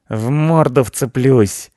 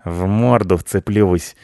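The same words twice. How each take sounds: First: High, loud, drawn-out cat threat; cat ready to attack; threatening cat. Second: Slow, drawn-out cat threat; offended cat promising revenge; threatening cat. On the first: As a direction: yowl the threat slowly. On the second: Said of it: "пообещал Рыжопиус". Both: A narrator's reading.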